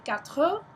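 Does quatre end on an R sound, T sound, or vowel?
vowel. The word ends with a full final vowel. This is the southern way of saying it. "In the south they say quatre"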